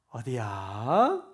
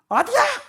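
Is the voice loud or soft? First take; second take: soft; loud. First: It is said softly in a low, gentle voice. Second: It is said loudly in a high, harsh voice. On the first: The listener feels respected. The speaker calls it right. "이거 얼마나 좋아요. 뭔가 이렇게 존중받는 느낌이잖아요" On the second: The listener feels scolded. The speaker calls it wrong. "어우 벌써 듣기가 너무 힘들잖아요"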